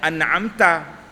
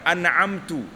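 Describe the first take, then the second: First: The word ends with an a vowel. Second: The word ends with a u vowel. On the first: The speaker calls it right. "sepatutnya an'amta" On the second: The speaker calls it wrong. "Atau bagi depan"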